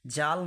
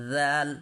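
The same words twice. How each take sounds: First: জাল with a Bengali "j" as in "jar"; everyday Bengali জাল, hard j; wrong j sound. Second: জাল opened with a voiced "th" as in "this"; correct dhal. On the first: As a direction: say জাল as "jaal", the mistaken way. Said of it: "যা বলবো না তো". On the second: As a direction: say জাল as "dhaal", tongue between teeth. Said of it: "তাহলে আমরা কি বলবো?". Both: Shown as a demonstration.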